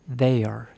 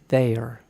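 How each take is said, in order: Both takes have the same delivery.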